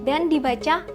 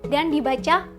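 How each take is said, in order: The two takes are said the same way.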